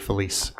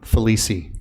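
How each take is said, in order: First: The final E is silent, not pronounced. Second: The final E is pronounced as a vowel. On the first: The speaker calls it wrong. "Many people will just say Felice" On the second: The speaker calls it right. "It's not a silent E at the end of my name"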